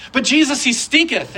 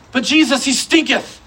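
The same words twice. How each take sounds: First: Mock complaint again. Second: Mock complaint. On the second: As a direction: play the disciples griping that he stinketh, half amused. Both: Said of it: "say stinketh and not giggle".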